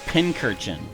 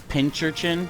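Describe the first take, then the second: First: The word begins with a plain 'pin' sound. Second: The word begins with a 'pinch' sound. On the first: The speaker calls it right. "I guess it's called a pincurchin" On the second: The speaker calls it wrong. "I purposely mispronounced them as pincherchin"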